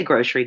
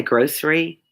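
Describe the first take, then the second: First: "grocery" said with sh, like groshery; "grocery" as GROSH-ree; Southern grocery. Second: "grocery" with a clean s in the middle; "grocery" with s, avoiding the Southern sh; other people's grocery. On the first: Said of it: "we say grocery down here". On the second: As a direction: say "grocery" as GROHSS-ree. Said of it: "Do some people say grocery?". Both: Shown as a demonstration.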